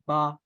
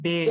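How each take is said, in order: First: The letter name ends in an 'aa' vowel. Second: The letter name ends in an 'ay' vowel. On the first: This is the Arabic name of the letter. "लेकिन अरबी में होगा बा" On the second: This is the Urdu name of the letter. "Urdu में हम इसे कहते हैं बे"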